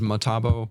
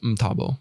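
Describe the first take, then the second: First: A vowel is heard between the m and t. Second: The m runs straight into t without a vowel. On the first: This is the common but inaccurate way people say it. The speaker calls it wrong. "everyone says Matabo" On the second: This is how the name is really said. The speaker calls it right. "the way you'd say it is Mtabo"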